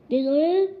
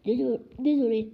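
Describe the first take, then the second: First: Loud indignant bark of the word; barking giant echoes the apology. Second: Said in the usual way. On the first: A narrator's reading. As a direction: throw the word back, louder, at him. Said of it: "aboya Hagrid". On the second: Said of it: "dit précipitamment Harry".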